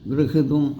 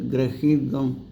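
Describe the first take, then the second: First: The vowel after 'gr' sounds like 'i'. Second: The vowel after 'gr' sounds like 'a'. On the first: The speaker calls it wrong. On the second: The speaker calls it right.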